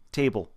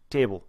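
Both takes have the same delivery.

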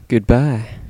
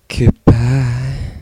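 First: It is said in a plain voice. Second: It is said in a sexy voice.

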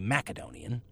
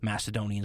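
First: The consonant after the first vowel is a hard K. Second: The consonant after the first vowel is a soft S. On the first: This is the form used in the region itself. "they're all going to say Macedonian" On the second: This is the modern Western form. "the way we say it here in the modern West due to a softening"

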